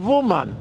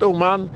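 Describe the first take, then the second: First: Wuman with a V sound at the start; "Wuman" begun with a voiced V; Russian-style pronunciation. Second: Said in the usual way. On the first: Shown as a demonstration. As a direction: say "Wuman" starting on V, not on a vowel. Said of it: "der russische Song Wuman". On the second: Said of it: "nicht Uman".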